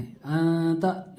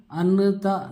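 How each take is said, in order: First: अंता very slow, n only a nasal hum; n hidden in the nose. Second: अनता with a clear, full n sound; wrong full n. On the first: Teacher shows students the right reading, nasal n. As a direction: hide the n of अंता in the nose, slowly. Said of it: "नून को बिल्कुल नाक में छुपा देना है". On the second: Teacher shows students the wrong reading, full n. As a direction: say अनता, n spoken out fully. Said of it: "अनता नहीं पढ़ना है". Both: Shown as a demonstration.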